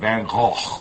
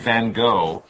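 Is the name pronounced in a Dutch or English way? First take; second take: Dutch; English. First: The name is said with a Dutch pronunciation. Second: The name is said with an English pronunciation. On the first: "if you're really Dutch, it's like Van Gogh" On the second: "We say Van Gogh"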